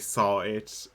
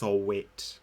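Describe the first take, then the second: First: It sounds like the two words 'saw it'. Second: It sounds like one name, 'sol-wit'. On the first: It plays the name as a pun. "like if you were not going to say saw it" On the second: It treats the name as an ordinary surname. "Let's try and pronounce it like normally"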